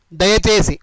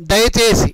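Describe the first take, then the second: No difference in how they are said.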